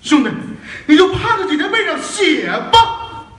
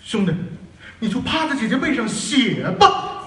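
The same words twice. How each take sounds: First: It is said passionately, with strong emotion. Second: It is said flatly, with little emotion.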